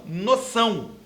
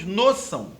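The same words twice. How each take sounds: First: The stress is on the last syllable. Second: The stress is on the first syllable. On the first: The speaker calls it right. "e não noção" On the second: The speaker calls it wrong. "Senão nós pronunciaríamos noção"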